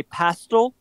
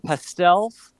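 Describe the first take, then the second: First: Pastel stressed on the first syllable, PASS-tul; British pronunciation. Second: Pastels stressed on the last syllable, pass-TELZ; American pronunciation. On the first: Explaining her speech therapist's influence, pastel said PASS-tul. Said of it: "British pronunciations". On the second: Contrasting with her British habit, pastels said pass-TELZ. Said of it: "instead of pastels". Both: Shown as a demonstration.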